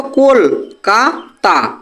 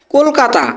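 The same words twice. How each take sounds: First: Kolkata slowly broken into কল, কা, তা; syllable by syllable. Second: Said in the usual way. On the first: Shown as a demonstration. Teacher showing students the syllables, Kolkata syllable by syllable. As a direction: say Kolkata in three separate beats with pauses. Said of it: "একটি ওয়ার্ডের একবারে উচ্চারণ হচ্ছে". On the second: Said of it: "দেখো কলকাতা".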